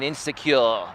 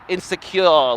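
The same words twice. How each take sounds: First: It is said in the speaker's own accent. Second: It is said in an Australian accent.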